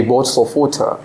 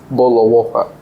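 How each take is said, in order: First: Queen's English with the T in "water" sounded; Queen's English accent. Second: Everyday British accent, no T in "water"; old British accent. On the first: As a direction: pronounce "water" the Queen's way, crisp T. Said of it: "is actually Queen". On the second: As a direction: swallow the Ts in "Boat of water", British-style. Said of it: "every British people was speaking like this". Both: Shown as a demonstration.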